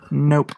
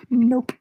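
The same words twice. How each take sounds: First: Said in the usual way. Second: Very high, quick teasing "Nope"; a playful high-pitched "Nope"; squeaky nope. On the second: Acted. Playful denial to chat.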